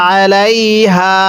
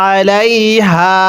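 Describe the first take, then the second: The two takes are said the same way.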